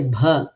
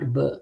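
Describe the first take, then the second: First: The b sound has a strong breath of air. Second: The b sound has no breath of air. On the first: The speaker calls it right. "you say bha" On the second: The speaker calls it wrong. "not b"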